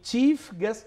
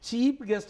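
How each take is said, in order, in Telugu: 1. మొదటి పదం f శబ్దంతో ముగుస్తుంది. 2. మొదటి పదం p శబ్దంతో ముగుస్తుంది.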